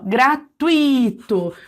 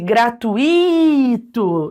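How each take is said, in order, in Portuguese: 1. A sílaba 'tui' é a mais forte. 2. O 'i' sozinho é a parte mais forte. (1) "O tui, ele é a pronúncia mais forte" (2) "deixasse só o i como se ele fosse um hiato"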